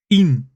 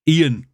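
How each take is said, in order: First: Ian as a single long EEN; one-syllable Ian. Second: Ian as EE-an; two-syllable Ian. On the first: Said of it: "Ian is one". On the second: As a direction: demonstrate Ian in two beats, EE-an. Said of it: "is two". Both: Shown as a demonstration.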